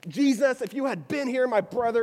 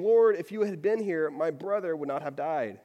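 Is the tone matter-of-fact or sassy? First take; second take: sassy; matter-of-fact. First: It is said in a sassy, biting tone. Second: It is said calmly, as a plain fact.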